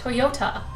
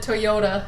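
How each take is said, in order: First: The middle T is pronounced crisply and clearly. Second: The middle T is softened in a drawl. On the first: "enunciate the T A like Toyota" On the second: "the Midwest drawl makes it Toyota"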